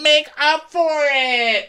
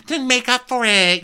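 First: "Make up for it" stretched out extremely high; drawn-out mock shriek. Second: Very high, brisker insistence on "make up for it"; mock petulant demand. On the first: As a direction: screech "Make up for it" slowly, word by word. Repeated, stretched acted demand. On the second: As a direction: imitate a whining guest's demand. First take of acted demand.

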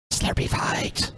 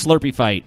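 First: Slow breathy whisper. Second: Said in the usual way. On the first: Shown as a demonstration. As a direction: whisper it slowly. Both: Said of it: "repeats it whispered".

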